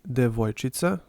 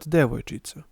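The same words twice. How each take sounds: First: The stress falls on a later syllable. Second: The stress falls on the first syllable. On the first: The speaker calls it right. "more chance to move it to the right" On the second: The speaker calls it wrong.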